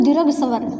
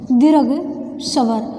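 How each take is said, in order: First: Said in the usual way. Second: दीर्घ स्वर said slowly, word by word, as for dictation. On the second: Shown as a demonstration. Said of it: "teacher repeats term for dictation".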